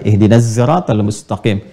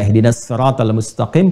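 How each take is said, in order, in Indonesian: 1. Sirat diawali dengan bunyi z yang bergetar. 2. Sirat diawali dengan bunyi s tebal. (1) "Nanti ada yang baca pakai zai" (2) "kita pakai sad"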